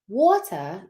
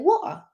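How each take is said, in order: First: The middle T sound is clearly pronounced. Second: The middle T sound is dropped. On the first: "Instead of saying water" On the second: "you're not supposed to pronounce the T's"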